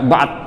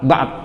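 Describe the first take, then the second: First: The word ends abruptly on the d consonant. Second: The word ends abruptly on the d consonant.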